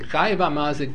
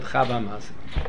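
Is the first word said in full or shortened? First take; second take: full; shortened. First: The first word is said in its full form. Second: The first word is said in a shortened form. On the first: This is the standard form of the phrase. "Instead of saying" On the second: This is the abridged Jerusalem way of speaking. "They used to abridge speak slangs"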